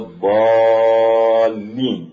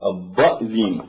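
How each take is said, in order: First: A long drawn-out vowel comes before the doubled l. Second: A glottal stop replaces the long vowel before l. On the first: This is the usual recitation of the word. "يمدون ولا الضالين" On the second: This is how some Arabs say the word. "تبدل هذه الألف بالهمز فتقول الضأذين"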